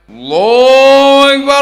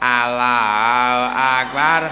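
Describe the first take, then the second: First: It is said intensely and seriously. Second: It is said casually and relaxed.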